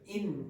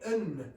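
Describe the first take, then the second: First: The word is said with a full vowel. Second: The word is said with a reduced vowel. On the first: "instead of in" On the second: "it sounds like in"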